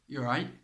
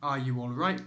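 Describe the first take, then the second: First: The words are squeezed into two quick syllables. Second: Every word is said fully and separately. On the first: The speaker calls it right. "You need to cut it down, make it shorter" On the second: The speaker calls it wrong. "But you don't say it like that"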